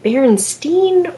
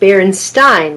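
First: The last syllable sounds like 'stain'. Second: The last syllable sounds like 'stine'.

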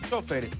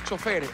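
First: The stress is on the first syllable. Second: The stress is on the last syllable. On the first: This is how Ecuadorians say it. The speaker calls it right. "le decimos chofer, con tilde en la O" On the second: This is not how Ecuadorians say it. The speaker calls it wrong. "no le decimos chofer"

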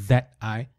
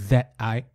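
Both takes have the same delivery.

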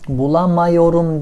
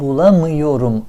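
First: The vowel after 'bulam' is a full 'a'. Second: The vowel after 'bulam' is a narrow 'ı'. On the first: The speaker calls it wrong. "değil" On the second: The speaker calls it right. "A neye dönüşmüş? I'ya dönüşmüş"

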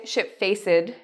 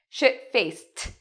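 First: The ending is not pronounced as a T sound. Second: The ending is pronounced as a T sound. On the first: The speaker calls it wrong. "So we don't say shit-faced" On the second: The speaker calls it right. "It's like a T in this case"

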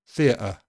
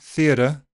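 First: The T is a glottal stop. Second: The T is a voiced flap. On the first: It comes across as too casual. "A glottal stop sounds too casual" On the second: It comes across as American. "A voiced D or flap sound American"

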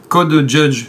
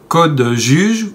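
First: The name is pronounced with English sounds. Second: The name is pronounced with French sounds. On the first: "à l'anglaise" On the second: "à la française"

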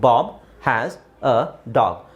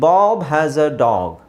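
First: There is a pause between each word. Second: The words are joined slowly with no pauses. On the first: The speaker calls it wrong. "ಓದಬೇಕಾದ್ರೆ ಫಸ್ಟಿಗೆ ನಾವು gap ಇಟ್ಕೊಂಡು ಓದಬೇಕು" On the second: The speaker calls it right. "ಎಲ್ಲೂ gap ಕೊಟ್ಟಿಲ್ಲ"

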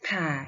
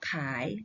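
First: The syllable is said with a changed tone. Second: The syllable is said in its base tone. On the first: "ไม่เอกข่าย" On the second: "ขออายอขาย"

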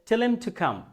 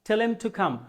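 First: Tell them is squeezed into one word, tellem. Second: The same.

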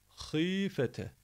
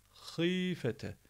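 No difference in how they are said.

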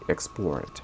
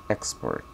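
First: The stress is on the second syllable. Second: The stress is on the first syllable. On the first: It is a verb: to sell goods abroad. "But if we're using it as a verb, it's going to be export" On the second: It is a noun: goods sold abroad. "if it's a noun, the stress goes on the first syllable"

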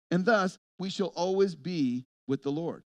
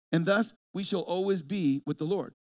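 No difference in how they are said.

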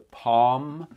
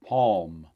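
First: The word is said without an L sound. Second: The word is said with an L sound. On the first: This is the reference name for the word set. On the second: This is how most Americans say it.

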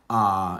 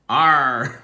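First: It is said without an r sound. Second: It is said in a Northern Irish accent.

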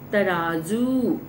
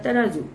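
First: The final u vowel is said long. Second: The final u vowel is said short. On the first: The speaker calls it right. "ये शब्द तराजू सही है" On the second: The speaker calls it wrong. "तराजू सही नहीं है"

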